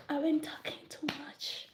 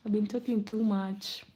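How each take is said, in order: First: Hushed aside, breathed out; self-scolding whisper. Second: Said in the usual way. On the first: Real, not acted. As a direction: whisper it to yourself.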